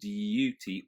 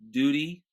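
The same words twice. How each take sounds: First: A y sound follows the d. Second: No y sound follows the d. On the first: "There's a little duty" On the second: "you would not have that y sound"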